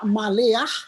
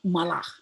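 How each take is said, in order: First: A short e vowel is sounded after the l. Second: No vowel is sounded after the l. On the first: The speaker calls it wrong. "Jadi dia tidak dibaca maleah" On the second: The speaker calls it right. "tapi malah"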